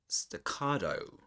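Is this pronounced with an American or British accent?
American. It is said with an American accent. "American English"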